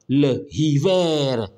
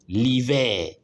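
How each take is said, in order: First: The article is said in full, unelided. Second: The article is elided into the word. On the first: The speaker calls it wrong. "on ne dit pas" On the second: The speaker calls it right. "on dit"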